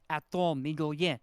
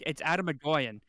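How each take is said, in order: First: The surname is said like 'Migolien'. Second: The surname is said like 'Agoyan'. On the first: This imitates how someone else says the name. The speaker calls it wrong. "as our uh, teacher would say. Actually, that's not how it's pronounced at all" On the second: This is the standard way to say the name. The speaker calls it right.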